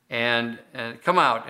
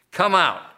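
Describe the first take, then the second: First: Said in the usual way. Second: Higher, firm order with a falling end; stern command. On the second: Acted. Jesus commanding the demon out, stern and firm. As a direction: cast it out with authority. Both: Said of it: "said Jesus sternly".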